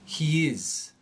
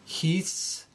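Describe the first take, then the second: First: It is said as two full separate words. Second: It is said as one contracted word.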